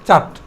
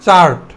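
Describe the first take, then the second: First: The r sound is silent. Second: The r sound is pronounced. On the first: "তাহলে আটা silent থাকবে" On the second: "চার্ট বলতাম"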